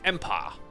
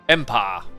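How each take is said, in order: First: It is said imitating another man's particular accent. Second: It is said in the speaker's own accent. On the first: "he's got this particular accent and he, he's like" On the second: "Kind of sounds okay"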